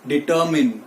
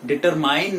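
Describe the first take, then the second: First: डिटरमाइन with short final MIN; correct pronunciation. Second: डिटरमाइन ending like MINE; wrong pronunciation. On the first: Teacher answering his question, डिटरमाइन as dee-TUR-min. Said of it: "क्या है?". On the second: Teacher rejecting the habit, डिटरमाइन as dee-ter-MINE. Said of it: "डिटरमाइन नहीं है". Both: Shown as a demonstration.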